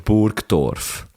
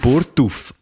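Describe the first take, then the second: First: The name is said in the full standard German form. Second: The name is said in the clipped local dialect form. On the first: This is not how the locals say it. The speaker calls it wrong. "Und nicht Burtluf oder Burgdorf" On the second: This is how the real locals say it. The speaker calls it right. "Die richtigen Emmentaler sagen Burtuf"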